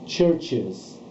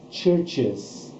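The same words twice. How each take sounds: The two takes are said the same way.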